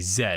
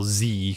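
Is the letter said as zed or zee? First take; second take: zed; zee. First: The letter is said as zed, Canadian style. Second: The letter is said as zee, American style.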